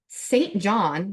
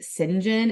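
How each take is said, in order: First: The name is said in the plain way. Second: The name is said the audiobook's way. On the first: The speaker calls it right. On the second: The speaker calls it wrong.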